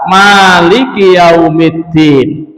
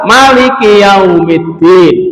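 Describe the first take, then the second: First: The vowel after the m is long. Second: The vowel after the m is short. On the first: It means the one who owns. "bisa dibaca panjang" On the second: It means king. "Jadi memnya pendek"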